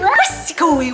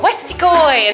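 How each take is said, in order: First: It is said in a weird put-on voice. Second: It is said in a normal voice.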